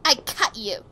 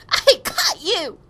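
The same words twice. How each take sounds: First: Said in the usual way. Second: Slow, high, loud cry; loud exclamation. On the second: Acted. Catcher calling to China on catching them, slow high shout. Same line cried out, then calmer.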